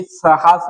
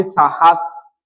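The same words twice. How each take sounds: First: साहस said with a short first vowel, sə-has; wrong form, साहस with a quick clipped first syllable; साहस as sə-has, the incorrect way. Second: साहस said with a long open first vowel, saa-has; साहस as saa-has, the correct way; correct long-aa form. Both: Shown as a demonstration. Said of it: "आ लगना चाहिए".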